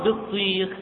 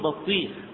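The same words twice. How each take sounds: First: The first syllable is said with an 'i' vowel. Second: The first syllable is said with an 'a' vowel. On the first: The speaker calls it right. "بكسر الباء" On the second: The speaker calls it wrong. "من اللحن الجلي أن تقول بطيخ"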